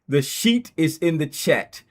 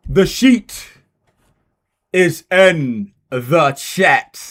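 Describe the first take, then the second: First: Said in the usual way. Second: Slow, loud stretched "is in the chat"; hyped drawn-out call; drawn-out announcement. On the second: Shown as a demonstration.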